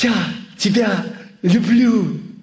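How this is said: It is said with showy emotion. "ты говоришь с эмоциями"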